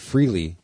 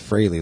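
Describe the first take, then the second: First: The first vowel sounds like 'free'. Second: The first vowel sounds like 'fray'. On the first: The speaker calls it wrong. "I've always pronounced it Freely" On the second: The speaker calls it right. "but it's Fraley, like Haley's Comet"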